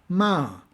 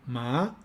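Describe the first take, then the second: First: The pitch falls sharply from high. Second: The pitch rises from mid to high. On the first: It means to blame. "el tono descendente" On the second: It means hemp. "con un tono ascendente"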